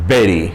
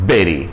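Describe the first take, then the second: Both takes have the same delivery.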